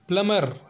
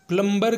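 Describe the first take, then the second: First: The b sound is silent. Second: The b sound is pronounced. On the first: The speaker calls it right. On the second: The speaker calls it wrong.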